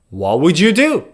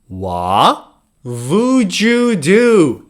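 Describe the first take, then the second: First: The phrase is said quickly. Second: The phrase is said at a normal speed. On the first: "Now faster" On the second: "Say it with me"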